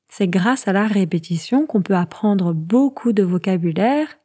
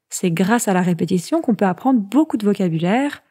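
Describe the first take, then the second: First: It is spoken at a slower, normal pace. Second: It is spoken at a faster pace.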